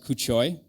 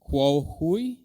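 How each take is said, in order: First: The name sounds like 'Kuchoi' with a 'ch'. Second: The name sounds like 'Kuo Hui' with an 'h'. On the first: The speaker calls it wrong. "In my mind, I read it as" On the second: The speaker calls it right. "but I think it's"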